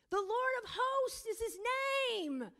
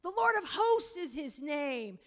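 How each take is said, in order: First: "hosts" hit much higher and louder; emphasis on hosts. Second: Said in the usual way. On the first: Shown as a demonstration. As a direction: lean hard on "hosts", then drop on "name". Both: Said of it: "You see the emphasis here?".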